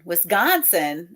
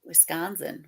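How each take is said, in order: First: Wisconsin with the C said as a G, slow; slow Chicago Wis-GON-sin; Chicago pronunciation. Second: Said in the usual way. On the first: Shown as a demonstration. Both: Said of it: "We pronounce the C in Wisconsin like a G".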